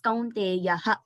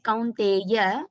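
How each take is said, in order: First: The word ends with a breathy h sound. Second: The word ends on a plain vowel, no h. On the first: The speaker calls it right. "It is kaunteyah" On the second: The speaker calls it wrong. "I heard it like kaunteya"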